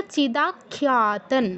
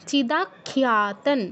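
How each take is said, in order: Both takes have the same delivery.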